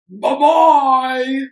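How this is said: It is said in a deep, gruff voice.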